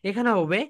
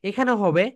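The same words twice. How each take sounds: Both takes have the same delivery.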